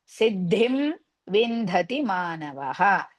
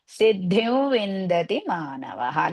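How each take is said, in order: First: The first word ends with an m sound. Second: The first word ends with a v sound.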